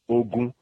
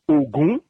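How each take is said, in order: First: Both syllables are on a level mid pitch. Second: The first syllable is low, the second high. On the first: It means war. "Riri, mid tone, both of them" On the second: It means the god of iron.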